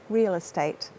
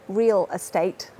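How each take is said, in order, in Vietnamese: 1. Hai từ nối liền với nhau trong lời nói liên tục. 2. Hai từ được phát âm tách rời, không nối liền. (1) "natural connected speech" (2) "as he did"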